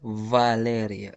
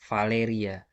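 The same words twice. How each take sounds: First: The V is stronger, with the mouth opened. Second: The V is soft, with a fairly closed mouth. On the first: "Tapi dalam bahasa Rusia, ... Agak lebih keluar bunyi" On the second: "Kalau V di Indonesia itu kan V"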